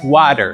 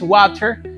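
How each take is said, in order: First: The t is a quick tapped sound. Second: The t is a plain, clear t sound. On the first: "del lado detallado es water" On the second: "de este lado estándar es water"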